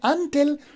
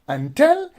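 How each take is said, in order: First: The stress is on the first syllable. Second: The stress is on the second syllable. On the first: The speaker calls it wrong. "so you are stressing the first syllable" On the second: The speaker calls it right. "so you are actually stressing the second syllable"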